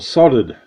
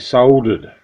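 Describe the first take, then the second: First: It is said the American way, without the L. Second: It is said the Australian way, with the L.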